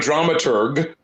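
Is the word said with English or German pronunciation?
English. It is said with an English pronunciation. "The hard G because it's a German"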